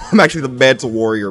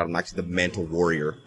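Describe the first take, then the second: First: Quick, emphatic boast; proud realization. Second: Low, soft and quick; hushed realization. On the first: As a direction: declare it with growing pride. Repeats the boast louder. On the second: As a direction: say it quietly to yourself. Boast said low, then repeated louder. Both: Real, not acted.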